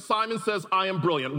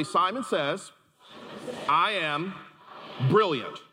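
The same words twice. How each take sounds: First: Said again with power and conviction; loud and powerful. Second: Said in the usual way. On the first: Shown as a demonstration. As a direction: outdoor voice indoors, full of chutzpah. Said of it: "say it again with power, feeling, conviction". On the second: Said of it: "Everybody say".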